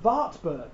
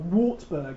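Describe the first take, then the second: First: The name is pronounced the German way. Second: The name is pronounced the English way.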